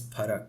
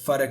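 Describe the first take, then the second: First: The word begins with a ph sound. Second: The word begins with an f sound. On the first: The speaker calls it right. "it's parak" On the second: The speaker calls it wrong. "It's not uh, farak"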